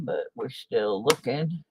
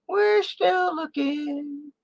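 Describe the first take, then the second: First: Said in the usual way. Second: Much higher, slow and stretched; high drawn-out singsong. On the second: Pretend. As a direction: sing it out slowly up high. Repeats phrase in put-on voice.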